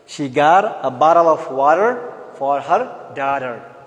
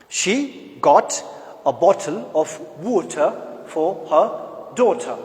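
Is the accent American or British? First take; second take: American; British. First: It is said in an American accent. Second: It is said in a British accent. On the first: "American will pronounce it in a bit different way" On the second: "a British will say"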